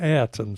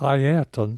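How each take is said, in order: First: The name is pronounced in a sloppy, anglicised way. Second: The name is pronounced in its careful, original way. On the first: The speaker calls it wrong. "I had become sloppy like a lot of people" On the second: The speaker calls it right. "his correct pronunciation"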